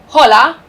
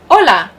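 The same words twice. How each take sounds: First: An H sound is pronounced at the start. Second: The word starts with no H sound. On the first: The speaker calls it wrong. "you would never say hola" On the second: The speaker calls it right. "the H is silent"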